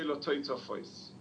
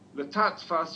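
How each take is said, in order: First: The word is articulated fully with every syllable clear. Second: The word is run together with syllables slurred. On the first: The speaker calls it right. "you say letoitofois" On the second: The speaker calls it wrong. "Instead of saying letatfas"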